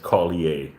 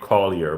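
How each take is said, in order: First: It is said with a French-influenced Canadian pronunciation. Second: It is said with an American pronunciation.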